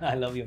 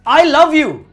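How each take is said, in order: First: It is said lightly and casually. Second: It is said with an angry edge. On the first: It is a friendly remark to a friend. "दोस्त को बोल रहे हो ... casual है वो" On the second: The loved one is leaving. "अगर तुम गुस्से में बोल रहे हो"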